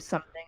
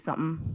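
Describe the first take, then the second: First: The final g sound is fully pronounced. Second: The final g sound is dropped. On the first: "instead of" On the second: "I'll drop a lot of G's"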